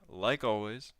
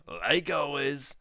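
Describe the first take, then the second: First: Said in the usual way. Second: Slow, loud, high echo of like always; mock catchphrase, slow and loud; emphatic repeat. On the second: Shown as a demonstration.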